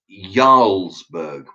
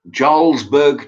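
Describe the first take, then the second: First: The word begins with a Y sound. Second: The word begins with a J sound. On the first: The speaker calls it right. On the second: The speaker calls it wrong.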